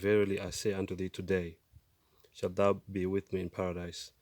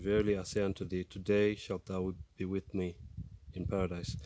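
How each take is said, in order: First: The pause comes after 'today'. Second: The pause comes before 'today'.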